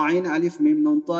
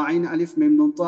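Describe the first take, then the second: Both takes have the same delivery.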